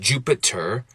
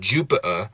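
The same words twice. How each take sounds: First: The T is a full, hard stop. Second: The T is a glottal stop. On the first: "I can make it a hard T" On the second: "I can make it a glottal stop"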